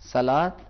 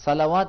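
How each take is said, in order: First: The written waw is silent, no 'w' sound. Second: The written waw is sounded as a 'w'. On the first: The speaker calls it right. "بلکہ کیا پڑھیں گے؟" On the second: The speaker calls it wrong. "صلوات نہیں پڑھیں گے"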